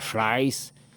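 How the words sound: It has an ai vowel and the R becomes an L. "le R, ça se prononce comme un L"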